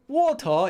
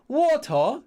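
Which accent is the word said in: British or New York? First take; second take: British; British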